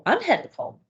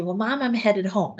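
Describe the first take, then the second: First: Echoed back higher, mildly insistent; anxious mom repeating the caregiver's words; mom echoing. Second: Said in the usual way. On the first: Retold or imitated. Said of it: "And they go". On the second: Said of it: "you say".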